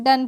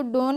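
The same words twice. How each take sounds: First: Said in the usual way. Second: डोन with a long o, like "dohn"; wrong spelling pronunciation. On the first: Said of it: "क्या पढ़ते हैं". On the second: Shown as a demonstration. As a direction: read "done" wrongly as डोन, with an o. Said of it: "इसको डोन नहीं पढ़ते हैं".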